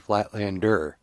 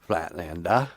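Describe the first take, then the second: First: The word ends with a clear r sound. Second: The word ends in an open ah sound. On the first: "she can't say Flatlander" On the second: "Everything that has an R ends in A H"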